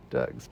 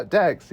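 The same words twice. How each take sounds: First: "dogs." with the usual American open vowel; understood as "dogs". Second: "Dags." said with a short a, rhyming with bags; accented "dags". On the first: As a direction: say "dogs." plainly, as the word finally understood. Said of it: "doesn't understand what he says". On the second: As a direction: say "dags." for dogs, mimicking the film accent. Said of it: "in that accent". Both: Retold or imitated.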